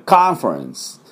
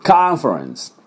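First: The first vowel is an open American 'ah'. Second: The same.

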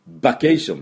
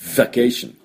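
First: It begins with a b sound, lips closed. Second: It begins with a v sound, lip on teeth. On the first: The speaker calls it wrong. "これを唇を合わせて、ば、vacation って言ってしまうと、b の音ですから、なんじゃそらってことになります" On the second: The speaker calls it right. "v の音"

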